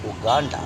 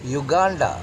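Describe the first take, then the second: First: The word begins with an 'oo' sound. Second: The word begins with a 'you' sound. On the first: The speaker calls it wrong. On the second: The speaker calls it right.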